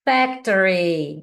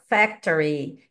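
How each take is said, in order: First: "Factory" drawn out slowly; teacher slowly pronouncing "Factory" for a check; slow model word. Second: "Factory" said slowly and deliberately; a slow, careful "Factory"; teacher repeating "Factory" slowly for students; slow model again. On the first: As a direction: stretch out "Factory" so they can check it. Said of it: "eu falo depois pra você checar". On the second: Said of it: "Agora eu soltei aqui". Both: Shown as a demonstration.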